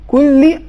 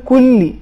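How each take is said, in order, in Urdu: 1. عربی لہجے میں ادا ہوا، آخر میں i جیسا۔ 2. عربی لہجے میں ادا ہوا، آخر میں i جیسا۔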